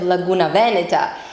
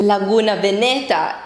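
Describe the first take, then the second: First: Veneta is stressed on its first syllable. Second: Veneta is stressed on its second syllable. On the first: The speaker calls it right. "instead of" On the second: The speaker calls it wrong. "me listening to"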